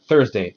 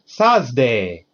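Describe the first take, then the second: First: It is said with a native English 'th' sound. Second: It is said with Japanese katakana sounds, 'Sazday'. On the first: The speaker calls it right. "they don't learn like Thursday" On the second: The speaker calls it wrong. "They're taught katakana English ... They learn Sazday"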